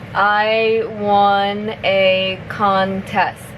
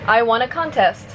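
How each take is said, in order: First: The sentence is spoken at a moderate pace. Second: The sentence is spoken at normal speed. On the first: "a little bit faster" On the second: "one more time at normal speed"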